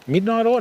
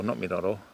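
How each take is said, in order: First: Puzzled echo. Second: Dropped low and soft, dismissing the mix-up midnight oil; muttered quietly under the breath, not midnight oil; quiet aside. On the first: Retold or imitated. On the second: Shown as a demonstration. Correcting his own mishearing of the lure name, muttered softly. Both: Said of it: "No, motor oil".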